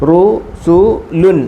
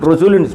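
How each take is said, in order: First: It is said slowly, syllable by syllable. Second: It is said quickly, syllables run together.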